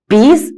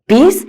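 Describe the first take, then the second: No difference in how they are said.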